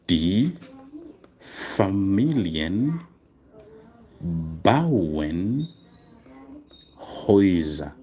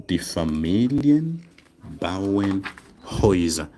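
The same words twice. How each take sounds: First: Very slow, each word set apart by long pauses; slow dictation. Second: Said in the usual way. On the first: Shown as a demonstration. Teacher dictating to students while writing it down, very slow. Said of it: "I should write this one down for, uh, spelling". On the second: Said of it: "write this one down".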